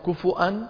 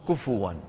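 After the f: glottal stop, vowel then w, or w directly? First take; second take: glottal stop; vowel then w. First: A glottal stop follows the vowel after f. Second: A vowel after f is followed by w. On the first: "فمن العرب من يهمزها فيقول كفؤا" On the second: "من يقلب الهمزة واوا من باب السهولة"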